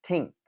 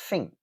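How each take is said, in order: First: The word begins with a t sound. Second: The word begins with an f sound. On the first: "or a t, a t sound" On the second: "You can replace it with a f, an f sound"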